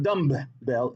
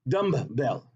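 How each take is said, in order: First: Two separate b sounds are heard in the middle. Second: A single b sound is heard in the middle. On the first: The speaker calls it wrong. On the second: The speaker calls it right. "that's only one B"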